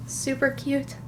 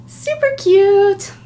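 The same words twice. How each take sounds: First: Said in the usual way. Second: High, slow, loud gush; excited squeal. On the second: Real, not acted. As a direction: gush over it. Repeats louder.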